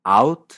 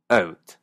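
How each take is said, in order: First: "Out" with an open A glide, louder. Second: "Out, about" with an E-like start, slow; E-like Canadian. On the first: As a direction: say "Out" the American way. ("Out" estadounidense) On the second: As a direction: say "Out, about" almost as "et, abet". ("out" casi con E) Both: Shown as a demonstration. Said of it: "comparando otra vez".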